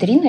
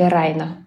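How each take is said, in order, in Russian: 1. Первый гласный звучит как 'ee'. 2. Первый гласный звучит как 'eye'. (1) "Все трушные чуваки говорят Рина" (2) "Райна, вообще-то"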